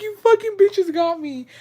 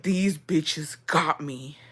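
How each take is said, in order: First: High-pitched re-enacted outburst; acting out being mad, very high. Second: Slow, drawn-out whisper of disbelief; hushed, stretched-out retold outrage; mad whisper. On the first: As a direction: squeal it in mock outrage, pitch way up. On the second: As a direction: whisper it slowly, acting out being mad. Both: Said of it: "I was so mad".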